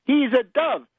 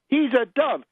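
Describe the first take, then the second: No difference in how they are said.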